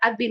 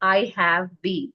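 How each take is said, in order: First: The word 'have' is reduced to a 've'. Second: The word 'have' is said in full.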